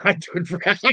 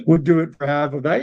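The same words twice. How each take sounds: First: Laughing through the words, then a high laugh. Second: Said in the usual way. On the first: Real, not acted. Laughing at a chat offer of half the money.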